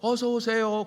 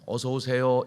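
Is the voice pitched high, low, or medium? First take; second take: high; medium. First: It is said at a very high pitch. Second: It is said at a moderately raised pitch. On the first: The greeting sounds odd. The speaker calls it wrong. "너무 높은 톤으로 어서 오세요 그래도 그것도 이상하죠" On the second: The greeting sounds welcoming and stays in the ear. The speaker calls it right. "솔 음으로 어서 오세요 이렇게 하면은 쏙 들어온다고"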